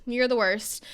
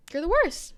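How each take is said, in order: First: Said in the usual way. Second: "worst" thrown up high then falling; first take, pitched well up on "you're the worst"; high emphatic take. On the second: Shown as a demonstration.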